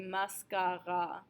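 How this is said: It is said with French vowel sounds. The speaker calls it right. "In French, we're spelled the same way, but we say mascara"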